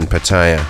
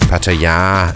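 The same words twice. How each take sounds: First: The name is said in an English way. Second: The name is said in the local Thai way.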